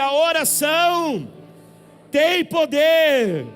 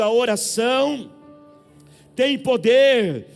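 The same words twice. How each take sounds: First: It is shouted. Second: It is said at normal loudness.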